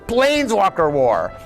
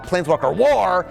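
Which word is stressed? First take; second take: Planeswalker; war. First: The stress falls on the word Planeswalker. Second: The stress falls on the word war. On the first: The focus is on the Planeswalkers. The speaker calls it right. "we started focusing on the Planeswalkers" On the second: The focus is on the war itself. The speaker calls it wrong. "we were emphasizing the wrong thing"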